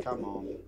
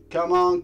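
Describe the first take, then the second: First: Said in the usual way. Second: Loud urging. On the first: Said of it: "repeated urging". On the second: Real, not acted. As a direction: come on, shouted higher and louder. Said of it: "repeated louder".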